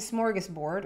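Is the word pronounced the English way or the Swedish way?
English. It is pronounced with an English pronunciation.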